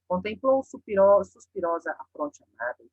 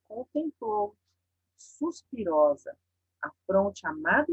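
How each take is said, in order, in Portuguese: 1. É lida de forma monótona, sem pausa dramática. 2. É lida com sentimento e com uma pausa dramática. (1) "se eu falo sem a pausa e sem a exclamação" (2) "eu tô dando pausa, eu tô dando sentimento"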